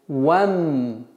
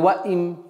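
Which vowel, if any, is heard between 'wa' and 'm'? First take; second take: none; i. First: The 'wa' moves straight onto the m, no vowel. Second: An extra 'i' vowel is inserted before the m. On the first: The speaker calls it right. "с фатхи вава перепрыгиваем на мим" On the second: The speaker calls it wrong. "или ваим"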